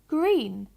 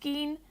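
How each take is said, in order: First: The word is said with the r sound. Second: The word is said without the r sound. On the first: The speaker calls it right. "we say green" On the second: The speaker calls it wrong. "if they say geen"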